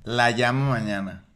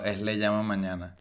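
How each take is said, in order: First: "la llamo" said with la, the wrong form; "la llamo mañana" with la for her; laísmo example. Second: "le llamo mañana" said with le, the correct form; "le llamo" with le, quiet and low. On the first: Two friends arguing grammar, quoting the wrong la. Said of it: "por un laísmo de". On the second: Two friends arguing grammar, quiet corrected le. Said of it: "Y le digo". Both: Shown as a demonstration.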